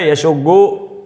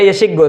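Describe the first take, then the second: First: The second vowel is a 'u' sound. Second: The second vowel is an 'i' sound. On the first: This is the form actually used. "tapi kita baca" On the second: This is the form the regular pattern would predict. "Harusnya kan"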